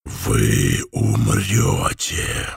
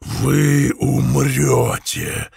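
First: Very low, slow, thunderous rasp; booming hoarse voice. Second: Slow, drawn-out hoarse threat; booming hoarse voice. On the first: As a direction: boom it out like thunder from the dark. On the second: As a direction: roll it out like distant thunder. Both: Acted. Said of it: "хриплый и низкий голос, громом прозвучавший".

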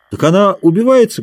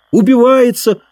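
First: Said in the usual way. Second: Убивается thrown up high and loud in scorn; mocking echo. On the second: A narrator's reading. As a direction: sneer the word Убивается back. Dick echoes the word mockingly.

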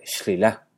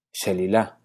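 First: Shlilá, sin la e, despacio. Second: Shelilá, con la e; shelilá completo. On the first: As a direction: di shlilá juntando consonantes. (forma moderna) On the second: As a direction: di Shelilá con todas las vocales. (forma antigua) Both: Shown as a demonstration. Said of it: "se vuelve".

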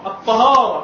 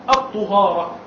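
First: الطهارة with an open a after the t, tahara; fatha on the ta. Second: الطهارة with a rounded u after the t, tuhara; damma on the ta. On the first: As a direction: say الطهارة as ṭahāra, with a fatha on the first letter. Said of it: "الطهارة بالفتح". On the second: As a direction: say الطهارة as ṭuhāra, with a damma on the first letter. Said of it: "بضم الطاء بقى". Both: Shown as a demonstration.

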